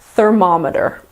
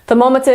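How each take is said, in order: First: It is said with an American pronunciation. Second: It is said with a British pronunciation. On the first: "the American pronunciation is" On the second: "is the British pronunciation"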